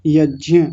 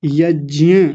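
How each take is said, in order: First: यज्ञ said as "yajya", with a rise at the end; correct pronunciation. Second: यज्ञ said as "yajya", with j and y blended; correct pronunciation. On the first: Teacher corrects यज्ञ for the students. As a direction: say यज्ञ as yaj-ya after the wrong form. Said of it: "यज्ञ शब्द गलत है". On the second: Teacher models यज्ञ as "yajya" for the class. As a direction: say यज्ञ as yaj-ya, rising gently at the end. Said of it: "ज्ञ बोलेंगे". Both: Shown as a demonstration.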